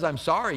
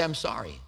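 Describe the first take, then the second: First: Said in the usual way. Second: Soft, low, simple sorry; sincere apology. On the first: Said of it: "So when someone says". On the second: Shown as a demonstration. Preacher modelling a sincere apology, soft and low. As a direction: say it humbly and quietly. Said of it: "Why not say".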